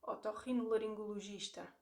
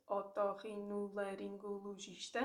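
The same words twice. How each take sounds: First: Otorrinolaringologista with the GIS syllable stressed. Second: Otorrinolaringologista broken into syllables, rising; sounding out words. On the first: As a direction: lean on the penultimate GIS in otorrinolaringologista. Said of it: "I'll say it again". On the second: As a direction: split otorrinolaringologista into separate syllables. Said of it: "if you break it down into syllables". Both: Shown as a demonstration.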